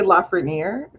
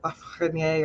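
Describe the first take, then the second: First: The name is said with an English pronunciation. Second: The name is said with a French pronunciation. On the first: This is how the speaker says her own name. "I say Lafreniere" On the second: This is the original French form of the name. "I think the French is like Lafreniere"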